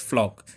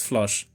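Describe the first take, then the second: First: The name ends with a k sound. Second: The name ends with a ch sound. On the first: The speaker calls it right. "it's pronounced flock" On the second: The speaker calls it wrong. "I pronounced the C H as, you know, the ch, the ch, like chimney or choke or cheese"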